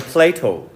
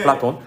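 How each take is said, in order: First: The name is said as 'peul-lei-to'. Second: The name is said as 'peul-la-ton'. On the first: This is how Americans call him. "영어식 발음은 따라해보자" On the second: This is how Koreans call him. "플라톤이라고 하죠 우리는"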